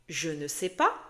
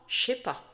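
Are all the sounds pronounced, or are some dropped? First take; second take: all pronounced; some dropped. First: Every syllable is pronounced fully and clearly. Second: Some sounds are dropped in casual speech. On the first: This is how it is written. "Tu vas lire" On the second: This is how people actually say it. "tu vas entendre"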